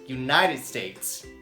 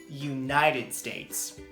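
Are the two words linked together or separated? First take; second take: linked; linked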